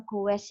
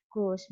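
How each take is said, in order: First: "goes" split into two syllables, "go-es"; wrong pronunciation. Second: Said in the usual way. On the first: Shown as a demonstration. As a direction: read "goes" as spelt, with a separate "es". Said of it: "bacanya bukan goes ya". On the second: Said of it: "tetapi goes misal".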